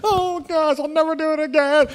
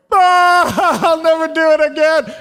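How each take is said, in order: First: Put-on high, contrite little girl voice; remorseful little girl. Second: High, loud, giggling promise; laughing promise. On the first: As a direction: play the sorry daughter. Daughter instantly repents. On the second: Retold or imitated. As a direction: blurt it out through a laugh. Sister repents after dad's talk.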